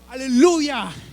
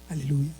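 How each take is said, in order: First: It is shouted out loudly and joyfully. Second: It is said softly and solemnly. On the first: It expresses jubilant triumph. The speaker calls it right. "son expresiones en alta voz" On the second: It expresses calm reverence. The speaker calls it wrong. "no lo dice en un momento de sublime"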